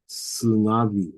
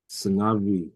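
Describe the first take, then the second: Both takes have the same delivery.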